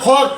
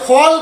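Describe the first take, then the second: First: The L sound is silent. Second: The L sound is pronounced. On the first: The speaker calls it right. "ফক কেন বললাম" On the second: The speaker calls it wrong. "ফল না বলে"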